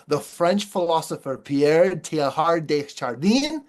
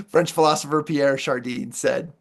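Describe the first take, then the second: First: A lightly put-on French accent on the name, ending in a rise; a speaker's self-mocking try at a French accent on Pierre Teilhard de Chardin. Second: Said in the usual way. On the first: Shown as a demonstration. Speaker tries a French name for the audience, in a lightly put-on French accent. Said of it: "let me give you my best French accent". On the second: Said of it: "I'm gonna obliterate this name".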